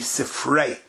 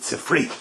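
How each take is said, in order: First: The word ends in an 'ay' vowel. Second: The word ends in an 'ee' vowel. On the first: This is the original pronunciation. "it's really Sifrei" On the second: This is the common pronunciation. "But the Oilim pronounces it Sifri"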